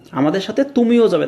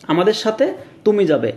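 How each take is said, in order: First: তুমিও given the main emphasis; stress on তুমিও. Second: Said in the usual way. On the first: Shown as a demonstration. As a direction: press on তুমিও. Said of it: "জোর দিচ্ছি". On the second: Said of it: "just সিম্পলভাবে আমি শেষ করতেছি".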